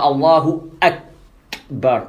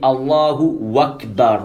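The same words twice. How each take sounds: First: Akbar starts with a clear glottal stop. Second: Allahu runs into Akbar as wakbar. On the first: The speaker calls it right. "Il ne dit pas Allahu Akbar" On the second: The speaker calls it wrong. "Il a enlevé le alif hamza. Ça aussi, c'est une erreur"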